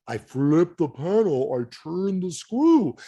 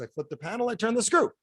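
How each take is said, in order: First: Slow, spelled-out explanation. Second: Said in the usual way. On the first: Retold or imitated. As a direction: say it very slowly, as to a child. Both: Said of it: "I'll slow it down".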